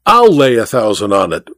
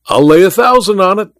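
First: Even, falling restatement of a bet; insistent reiteration. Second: High, rising challenge; excited cry. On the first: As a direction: restate the wager with settled certainty. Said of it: "reiterated the Tonopah magnate". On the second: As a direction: cry out the wager. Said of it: "cried Welton". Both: A narrator's reading.

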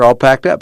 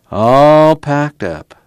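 First: Said in the usual way. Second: Slow, drawn-out "All packed up"; slow echo. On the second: A narrator's reading. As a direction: stretch "All" long and high, then fall. Muley echoes the words slowly.

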